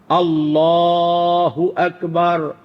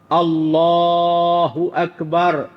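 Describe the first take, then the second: No difference in how they are said.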